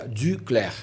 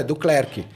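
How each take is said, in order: First: "Duclerc" in French, U close to "i"; French pronunciation. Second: "Duclerc" the Brazilian way, as "du-CLÉR-qui"; simplified Brazilian pronunciation. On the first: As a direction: say "Duclerc" with French vowel and silent final C. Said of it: "em francês seria". ("Duclerc" com pronúncia francesa) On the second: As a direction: say "Duclerc" with plain U and sounded final C. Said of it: "pra facilitar". ("Duclerc" abrasileirado, com U comum) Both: Shown as a demonstration.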